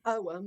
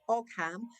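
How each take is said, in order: First: It is sounded differently from its spelling. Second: It is sounded out as it is spelled. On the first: The speaker calls it right. "but you pronounce it Ogham" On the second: The speaker calls it wrong. "It's spelled O G H A M, like Ogham"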